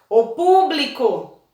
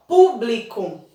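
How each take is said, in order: First: "público" called out slowly like a name, stretching "pú"; drawn-out "O público" with a strong "pú"; calling, stressed syllable. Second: "Público" said slowly, weight on "Pú"; stressed first syllable. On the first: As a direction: call to "público" as if to a person. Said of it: "chamar como se a pessoa tivesse". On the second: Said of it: "Qual é a sílaba mais forte?". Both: Shown as a demonstration.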